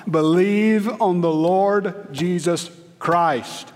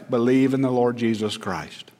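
First: "Believe on the Lord Jesus Christ" drawn out slowly, every word weighted, stress on "on"; slow emphatic. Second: Said in the usual way. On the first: Shown as a demonstration. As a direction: lean on "on" and stretch the whole line slowly. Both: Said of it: "That's it".

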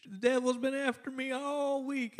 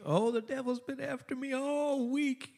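First: High, soft mock Southern lady sighing about the devil; Southern church lady, high and soft; southern drawl. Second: High, soft mock Southern lady voice; a hammed-up Southern church lady, pitched high; southern drawl. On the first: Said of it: "one of those southern, little bit of southern drawl". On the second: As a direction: imitate a super-spiritual Southern church lady. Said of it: "little bit of southern drawl".

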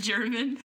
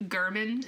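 First: Said in the usual way. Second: German with a hard G, GUR-min; deliberate mispronunciation. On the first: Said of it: "instead of German". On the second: Shown as a demonstration. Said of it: "I specifically go German instead of German".

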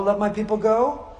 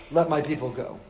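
First: Higher, firmer command aimed at Pharaoh; demand to Pharaoh. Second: Lower, gentler urging to his own people; encouraging the people. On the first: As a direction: issue it as a demand to the king. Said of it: "He had to say to Paro". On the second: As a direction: coax them to believe they can leave. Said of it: "he had to say to the people". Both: Retold or imitated.

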